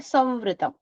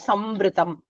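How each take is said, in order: First: The nasal sound is made with lips left open. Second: The nasal sound is a full m with closed lips. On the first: The speaker calls it right. "a Chandrabindu on top of the V, you say" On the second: The speaker calls it wrong. "You won't say"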